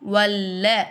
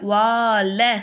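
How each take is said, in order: First: The first vowel is short, with no long a. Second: The first vowel is a long a sound. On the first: The speaker calls it right. "வல்ல அப்படி தான் நம்ம சொல்லுமே" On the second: The speaker calls it wrong. "வால அப்படி சொல்லக்கூடாது"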